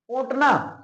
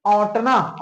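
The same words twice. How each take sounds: First: ओटना with a plain short o, no nasal; ओटना clearly, no nasal. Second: औंटना said slowly with an open nasal au; औंटना, au nasalized, drawn slowly. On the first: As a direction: say ओटना with a clean o sound. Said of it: "एक ओंटना का मतलब होता है बिनौले अलग करना". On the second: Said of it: "ये औंटना का मतलब होता है खौलना". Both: Shown as a demonstration.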